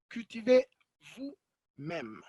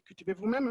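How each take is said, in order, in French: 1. « vous-même » est accentué, après une pause, et monte plus haut. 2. Elle est prononcée de façon neutre, sans emphase particulière. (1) "en mettant de l'emphase sur euh, qui est-ce qui fait l'action, avec une petite pause et peut-être euh, une, une, intonation un peu plus haute" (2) "On peut dire"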